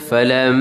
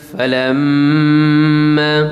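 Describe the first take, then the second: First: The nasal m is held for a shorter time. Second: The nasal m is held for a longer time. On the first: "kalau dua, ... itu dua lebih kurang" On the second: "tapi kalau tiga panjang sikit lah"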